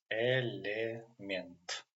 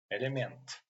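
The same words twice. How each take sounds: First: Element slowly split as "e-le-ment"; syllable-by-syllable demo. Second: Said in the usual way. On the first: Shown as a demonstration. Teacher introducing the Russian word, element slowly as "e-le-ment". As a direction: sound out element in three drawn-out syllables. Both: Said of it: "Next example is element".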